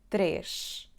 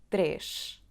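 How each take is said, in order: First: The word ends with an sh sound. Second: The same.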